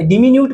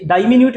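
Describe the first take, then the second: First: डिमिन्यूट said as "di-minute" with a short di; alternate pronunciation. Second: डायमिन्यूट said as "dai-minute" with a long dai; alternate pronunciation. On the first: Teacher showing students one accepted form, "di-minute". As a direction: start with a short "di", then "minute". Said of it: "डिमिन्यूट भी बोलते हैं". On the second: Teacher showing students the other form, "dai-minute". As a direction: open wide on "dai", then "minute". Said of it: "डायमिन्यूट भी बोलते हैं". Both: Shown as a demonstration.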